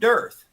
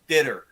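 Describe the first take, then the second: First: The name sounds like 'dearth', one syllable. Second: The name sounds like 'ditter', two syllables. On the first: "everybody calls it dearth" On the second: "It's like ditter"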